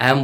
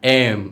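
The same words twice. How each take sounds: First: Said in the usual way. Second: "এম" louder, vowel and M both held; emphatic, drawn-out "এম"; corrected letter M. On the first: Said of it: "এটা এম হবে না". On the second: Shown as a demonstration. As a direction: hum out the end of "এম". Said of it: "এটা হবে".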